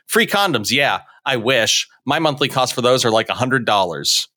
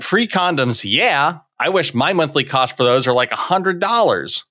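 First: A break follows "I wish" before the rest. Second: "I wish" runs straight into the rest. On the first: The speaker wishes condoms were free because they cost $100. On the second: The cost of condoms is about $100 a month.

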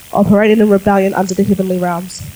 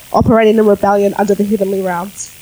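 No difference in how they are said.

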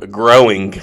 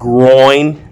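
First: The word is said as two syllables, like growing. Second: The word is said as one syllable, like oil. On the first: The speaker calls it wrong. "I think you put an extra G there" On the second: The speaker calls it right. "No, it's groin"

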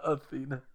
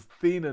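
First: The name starts with an initial vowel sound. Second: The name starts without an initial vowel sound. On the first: The speaker calls it wrong. "not Athena" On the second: The speaker calls it right. "don't say the A at the beginning"

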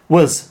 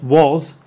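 First: The word is reduced with a weak vowel. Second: The word is full with a strong vowel. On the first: The speaker calls it right. "I was helping was" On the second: The speaker calls it wrong. "not was"

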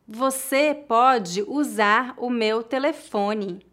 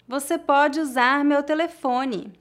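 First: The sentence is spoken slowly. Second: The sentence is spoken at natural speed. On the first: "uma vez mais devagar" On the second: "outra vez mais naturalmente"

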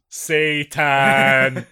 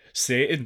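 First: The word is said more slowly. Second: The word is said at normal speed.

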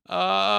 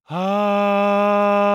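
First: The voice is gravelly and rough. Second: The voice is breathy and airy.

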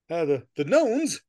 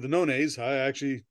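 First: The word is given an English-style pronunciation. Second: The word is given a Romance-style pronunciation. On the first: The speaker calls it wrong. "when I said knowns, I'm like, well, that's English" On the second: The speaker calls it right. "This is a romance language. It's probably knownays"

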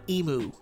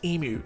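First: It is said with an American pronunciation. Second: It is said with an Australian pronunciation. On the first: The speaker calls it wrong. "America, ... not emu" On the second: The speaker calls it right. "it's pronounced emu"

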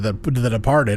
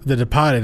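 First: It is said in a standard accent. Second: It is said in a Boston accent.

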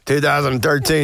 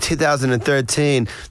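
First: It is said in an American accent. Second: It is said in an English accent.

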